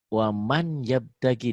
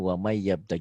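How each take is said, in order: First: The n sound is pronounced clearly before the y. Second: The n sound disappears and merges into the y. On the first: This is how the words are written. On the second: This is how the words are actually recited.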